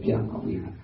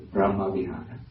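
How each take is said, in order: First: Brahma Vihara said as 'Byama Vihara'; Burmese-style 'Byama' before Vihara; Burmese pronunciation. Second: Brahma Vihara with a full 'br' and open 'ah'; Sri Lankan pronunciation. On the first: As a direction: turn the 'br' of Brahma into a gliding 'by'. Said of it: "in Burmese pronunciation". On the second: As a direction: say 'BRAH-ma Vihara', the r sounded. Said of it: "In Sri Lanka". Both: Shown as a demonstration.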